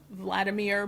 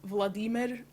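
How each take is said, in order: First: The name is said with a plain English pronunciation. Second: The name is said with a Russian-sounding pronunciation. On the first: "more Russian than uh, Vladimir" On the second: "I'm trying to pronounce it a little bit more Russian"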